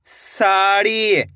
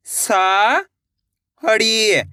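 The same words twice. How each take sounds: First: Said in the usual way. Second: Drawn-out syllable by syllable; sounded out slowly. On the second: Shown as a demonstration. Teacher sounding out a word for pupils, slowly drawn out. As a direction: stretch each sound for the pupils. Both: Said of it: "एक अक्षर का उच्चारण करके".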